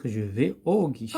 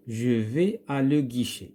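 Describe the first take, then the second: First: "au guichet" with "au" as one long "o" sound; contracted correct form. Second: "à le guichet" with "à" and "le" as two separate words; uncontracted wrong form. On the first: Teacher gives pupils the corrected sentence, "au" as one sound. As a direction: merge "à le" into a single "au" before "guichet". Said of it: "qu'est-ce qu'on va dire". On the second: Teacher reads out the faulty sentence for pupils, "à le" kept separate. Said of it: "ما يمكنش نقولوا à le guichet". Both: Shown as a demonstration.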